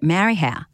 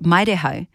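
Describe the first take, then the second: First: The name is said with English-style vowel sounds. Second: The name is said with Māori vowel sounds. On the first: The speaker calls it wrong. "but everyone called it Marihau" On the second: The speaker calls it right. "it's called Maireho"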